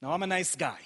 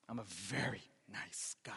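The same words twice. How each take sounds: First: Said in the usual way. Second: Hushed, low whispered aside. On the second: Real, not acted. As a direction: whisper it slyly to the congregation. Joking hushed repeat to congregation.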